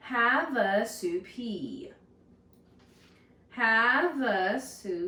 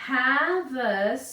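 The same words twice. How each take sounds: First: Havasupai stretched slowly into four even syllables. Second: Havasupai said loud, careful, syllable by syllable; sounding out a hard word. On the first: Teacher repeating Havasupai slowly so the class can clap it. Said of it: "is four syllables". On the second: Teacher sounding out Havasupai for the class, loud and careful. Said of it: "try our best to sound it out". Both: Shown as a demonstration.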